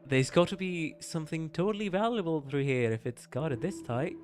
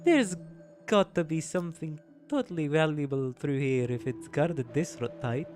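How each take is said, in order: First: It is read in the speaker's plain accent. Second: It is read in a put-on Russian accent.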